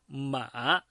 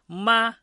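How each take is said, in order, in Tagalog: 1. Bumababa muna at saka tumataas ang tono. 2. Pantay at pareho ang tono. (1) "nasa pangatlong tono" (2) "nasa unang tono"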